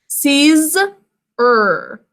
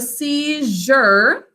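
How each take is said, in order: First: The middle consonant is a plain 'z' sound. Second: The middle consonant is a soft 'zh' sound. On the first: This form is said only to help with spelling. "two syllables is the way we think to spell it" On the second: This is the normal spoken form. "it changes in pronunciation from a Z to a J"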